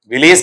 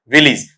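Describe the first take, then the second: First: विलेज as "vi-layz", long e; long-vowel ending on विलेज; wrong pronunciation. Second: विलेज as "VIL-iz"; short, falling विलेज; correct pronunciation. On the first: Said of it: "विलेज की बजाय इसे क्या". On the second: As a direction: say विलेज with two short i vowels. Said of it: "इसे क्या पढ़ा जाएगा". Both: Shown as a demonstration.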